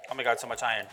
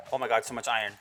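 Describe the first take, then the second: No difference in how they are said.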